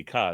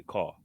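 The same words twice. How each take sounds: First: "ka" for car, open vowel, r dropped; Boston car. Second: "car" low and soft with a rounded vowel; New York car. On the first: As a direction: quietly show Boston's "ka" without the r. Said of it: "they say". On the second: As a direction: say "car" as a New Yorker, quietly. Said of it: "we got the". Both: Shown as a demonstration.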